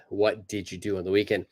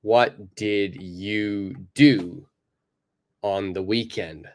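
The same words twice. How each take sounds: First: Fast "What did you do on the weekend" with the words joined; everyday native "What did you do on the weekend"; natural blended form. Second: Slow "What did you do" with every word separate; over-careful textbook "What did you do on the weekend"; careful full form. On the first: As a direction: run "What did you" together quickly. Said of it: "I don't sound like that". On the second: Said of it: "if we're looking at the correct". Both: Shown as a demonstration.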